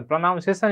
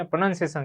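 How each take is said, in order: First: પ્રોનાઉન્સિએશન with a "noun" sound in the middle; the common slip "pro-NOUN-ciation" in પ્રોનાઉન્સિએશન; mispronounced word. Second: પ્રોનન્સિએશન with a short "nun" in the middle; "pro-NUN-ciation", no "noun" sound in પ્રોનન્સિએશન; corrected pronunciation. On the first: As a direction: say પ્રોનાઉન્સિએશન with "nown" as second syllable. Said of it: "પ્રોનાઉન્સિએશન નહીં guys". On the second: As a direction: say પ્રોનન્સિએશન with "nun" as second syllable. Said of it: "એને પ્રોનન્સિએશન કહેવાય". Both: Shown as a demonstration.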